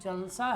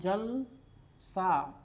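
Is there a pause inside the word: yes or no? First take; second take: no; yes. First: Jal and sa run together without a pause. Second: There is a short pause between jal and sa. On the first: It is a gathering or function. "यहाँ मौन नहीं है" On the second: It looks like water. "जल बोलने के बाद थोड़ा रुक रहे हैं और तब सा बोल रहे हैं"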